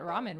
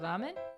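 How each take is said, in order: First: The first consonant is a hard English r. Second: The first consonant is a soft, L-like tap. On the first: "most people nowadays call it ramen" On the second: "The Japanese would have a softer sound on the L"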